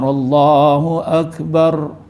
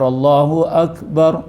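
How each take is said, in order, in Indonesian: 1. Huruf r di akhir digetarkan dengan kuat, seperti dobel. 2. Huruf r di akhir itu pendek dan ringan. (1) "dia deras sikit ... jadi di dua double" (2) "Ada yang baca"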